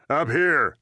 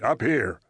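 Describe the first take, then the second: First: Urgent order. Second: Said in the usual way. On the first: A narrator's reading. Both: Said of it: "Frank said".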